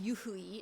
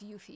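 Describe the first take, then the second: First: It is said with three syllables, yu-hu-i. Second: It is said with two syllables, yu-fi. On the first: The speaker calls it wrong. "instead of saying yuhui" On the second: The speaker calls it right. "it's yufi because of the e is small"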